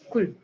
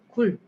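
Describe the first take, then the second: First: The vowel is cut short. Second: The vowel is held long. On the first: "조금 더 짧게" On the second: "조금 길게"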